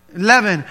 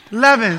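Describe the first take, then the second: First: Leaven said as LEE-ven, long e; Leaven, first vowel like see. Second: Leaven said LEV-en, short e like heaven; Leaven, short e, rhymes with heaven. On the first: Real, not acted. Pastor saying Leaven his own way, long e. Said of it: "Oh, it's your accent". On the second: Shown as a demonstration. Pastor correcting himself to the congregation, Leaven with short e. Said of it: "It's your accent".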